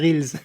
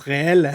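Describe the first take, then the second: First: The word is pronounced with English sounds. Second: The word is pronounced with French sounds. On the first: It keeps the original English word for film reels. The speaker calls it right. "faudrait le prononcer reels" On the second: It sounds like the everyday word for real. The speaker calls it wrong. "Mais les gens le prononcent réel"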